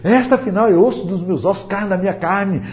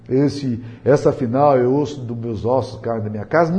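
First: It is read in an excited, enchanted tone. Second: It is read in a flat, unexcited tone.

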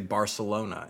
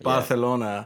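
First: The c is said with an s sound. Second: The c is said with a th sound. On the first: This is how it is said in Mexican Spanish. "I know I'm speaking incorrectly by their standards when I say Barcelona" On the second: This is how it is said in Spain. "going to Spain, everything is, you know, like. ... They have a lisp"

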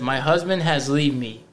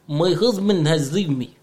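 First: It is read in a plain, regular voice. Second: It is read in a put-on Russian accent.

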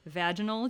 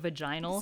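First: It has an American pronunciation. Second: It has a British pronunciation. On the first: The speaker calls it right. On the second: The speaker calls it wrong.

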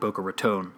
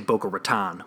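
First: It is said in a neutral accent. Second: It is said in a Chicago accent.

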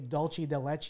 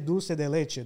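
First: It is said with an anglicized English pronunciation. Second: It is said with a native Spanish pronunciation. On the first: This is how native speakers would not say it. "They're not going to say dulce de leche" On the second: This is how native speakers say it. "Spanish people say dulce de leche"

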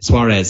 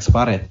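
First: The name is said with an English pronunciation. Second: The name is said with a Spanish pronunciation. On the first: The speaker calls it wrong. "pronouncing names like the English way" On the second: The speaker calls it right. "pronounced it properly"

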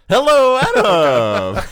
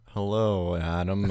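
First: It is said with much more excitement. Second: It is said with little excitement.

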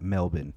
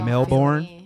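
First: Melbourne is said the way Australians say it. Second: Melbourne is said in the speaker's usual way. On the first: "an Australian person tell me to pronounce it Melbourne" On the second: "But then I say Melbourne"

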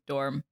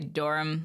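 First: It is said as one short syllable. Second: It is stretched to almost two syllables.

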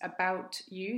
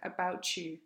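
First: The t and y sounds stay separate. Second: The t and y blend into a 'ch' sound.

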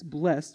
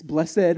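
First: It is said the way the verb sounds. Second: It is said the way the adjective sounds. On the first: The word names an action. "It's blessed when it's a verb" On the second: The word describes something. "It's blessed when it's an adjective"

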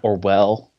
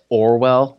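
First: The name is said with French-style pronunciation. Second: The name is said with plain English pronunciation. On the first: The speaker calls it wrong. "not Orwell" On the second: The speaker calls it right. "It's pronounced Orwell"

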